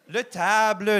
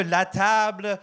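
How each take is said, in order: First: "le table" with the masculine article le, not la; wrong gender. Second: Said in the usual way. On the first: Shown as a demonstration. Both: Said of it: "on s'en fout".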